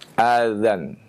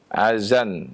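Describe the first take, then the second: First: The middle consonant is a soft dh sound. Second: The middle consonant is a z sound. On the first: The speaker calls it right. "mengucapkan azan" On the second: The speaker calls it wrong. "dengan zai"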